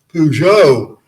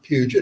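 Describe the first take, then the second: First: It sounds like the car brand Peugeot. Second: It sounds like the Puget in Puget Sound. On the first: This is the pronunciation other people expected. "it's Peugeot" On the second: This is the family's original East Tennessee pronunciation. "you say Puget"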